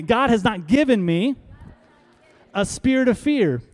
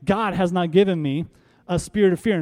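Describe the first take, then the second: First: Bolder, higher proclamation; declared with conviction. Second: Said in the usual way. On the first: Shown as a demonstration. Pastor urges congregation to declare it, bold and higher. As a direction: proclaim it like you mean it. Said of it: "say it like you mean it". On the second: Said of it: "by saying".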